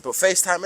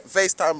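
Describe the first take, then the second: First: Said in the usual way. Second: Laughing. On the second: Real, not acted. Joking to viewers about calling his friends, laughing. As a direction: chuckle through FaceTime at his own joke.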